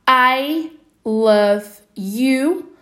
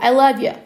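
First: It is said at normal speed, 'you' fully pronounced. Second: It is said fast, 'you' reduced toward 'yeah'. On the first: "Essa pessoa poderia falar I love you" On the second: "ou ela poderia falar super mais rápido"

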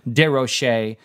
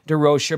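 First: The name is pronounced in a French way. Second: The name is pronounced in a plain English way.

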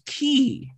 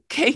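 First: The name rhymes with 'see'. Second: The name rhymes with 'say'. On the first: The speaker calls it wrong. "it's not fucking Key" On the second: The speaker calls it right. "It's pronounced the same as the first letter. It's just K"

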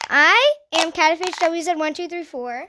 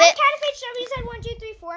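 First: It is said slowly. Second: It is said fast.

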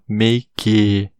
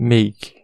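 First: An extra vowel sound follows the final k. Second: The word ends on the k with no vowel. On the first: The speaker calls it wrong. "destacar esse E como a gente faria em português" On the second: The speaker calls it right. "a pronúncia é make"

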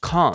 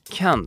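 First: It is said with a British accent. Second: It is said with an American accent.

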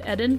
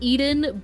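First: The name is said with a Japanese-style pronunciation. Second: The name is said with an English-style pronunciation. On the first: "because I'm watching in Japanese, they pronounce it Eden" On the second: "It's spelled Eden"

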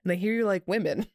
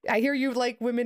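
First: It is said in a creepy, suggestive tone. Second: It is said in a plain, friendly tone. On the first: The speaker calls it wrong. "You say that in a creepy way" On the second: The speaker calls it right. "in a not creepy way"

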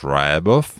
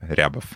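First: The name is said the American way. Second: The name is said the Russian way.

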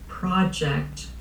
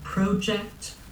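First: It is said with an American pronunciation. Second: It is said with a Canadian pronunciation. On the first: "In the United States, they say" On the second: "growing up, I said"

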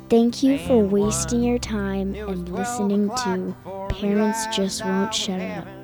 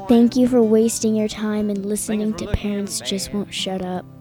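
First: It is said a little more slowly. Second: It is said at normal speed.

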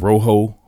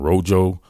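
First: The name is pronounced the Spanish way. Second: The name is pronounced the English way.

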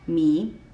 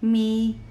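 First: The pitch starts lower and rises. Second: The pitch stays high and level. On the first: "starts a little bit lower than the first tone and goes up, rising" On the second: "the first tone is a high tone, and it's leveled, it's straight"

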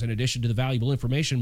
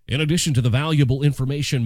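First: It is read in an ordinary speaking voice. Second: It is read in a polished radio-announcer voice.

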